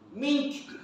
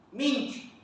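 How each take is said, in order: Both takes have the same delivery.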